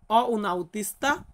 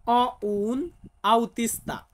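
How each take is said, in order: First: "অ উন আউতিস্তা" again, a little slower than usual; slow repeat. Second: "অ উন আউতিস্তা" said very slowly, word by word; slow model sentence. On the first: Teacher repeating the Italian sentence for students. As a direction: repeat "অ উন আউতিস্তা" at a steady learner's pace. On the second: Teacher modelling the Italian sentence slowly for students. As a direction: spell out "অ উন আউতিস্তা" at half speed for learners. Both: Shown as a demonstration. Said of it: "আমাকে বলতে হবে".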